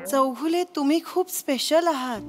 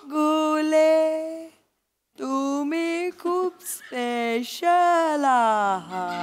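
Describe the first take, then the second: First: It is said at normal speed. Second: It is said very slowly, drawn out.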